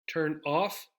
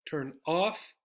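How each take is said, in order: No difference in how they are said.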